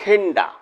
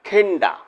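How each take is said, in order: First: The words blend into one short reduced word. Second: The words blend into one short reduced word.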